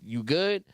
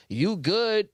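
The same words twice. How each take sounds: First: YOU GOOD asked with GOOD rising; questioning tune. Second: YOU GOOD higher, GOOD falling at the end; falling tune. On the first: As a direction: lift the end of GOOD into a question. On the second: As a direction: pitch up YOU GOOD, then let GOOD drop. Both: Shown as a demonstration. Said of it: "it's the way you say it".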